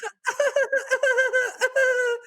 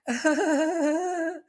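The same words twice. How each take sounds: First: Very high strained giggle; nervous laugh. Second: High awkward nervous giggle; nervous laugh. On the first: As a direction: squeak out an uneasy laugh. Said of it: "or like". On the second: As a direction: laugh like you're uncomfortable. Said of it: "it goes a little something like". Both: Shown as a demonstration.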